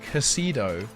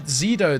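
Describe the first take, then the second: First: The name begins with a ks sound. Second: The name begins with a z sound. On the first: The speaker calls it right. "they say Casido. Fair play" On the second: The speaker calls it wrong. "I just thought it was like z- the Z sound because of an X"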